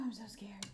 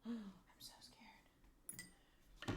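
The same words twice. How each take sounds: First: Said in the usual way. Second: Slow, gasped, breathy whisper of fear; scared whisper. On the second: Real, not acted. Whispering to chat while fitting clock, real fear. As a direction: hold your breath and barely voice it.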